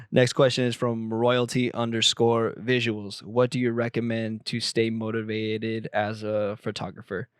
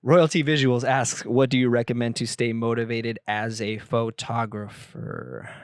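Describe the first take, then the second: First: Flat, monotone robot reading. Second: Said in the usual way. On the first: Shown as a demonstration. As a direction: read it like a robot. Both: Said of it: "Why did I just read that like a robot?".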